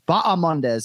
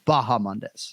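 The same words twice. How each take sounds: First: The second syllable starts with a vowel, no H. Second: The second syllable starts with a breathy H sound. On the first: The speaker calls it right. "it's that second syllable, ah, not ha, even though you see the H" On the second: The speaker calls it wrong. "not Bahamondes"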